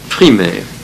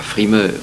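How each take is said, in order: First: The name begins with a pf sound. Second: The name begins with a plain f sound. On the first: The speaker calls it right. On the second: The speaker calls it wrong. "Pas Frimer"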